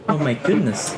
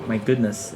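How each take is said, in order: First: Higher surprised exclamation. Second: Said in the usual way. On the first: Shown as a demonstration. Student showing classmates how surprise sounds, surprised. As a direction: exclaim it in surprise, pitch lifted. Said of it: "for expression of surprise, you can say". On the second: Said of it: "And for expression of surprise".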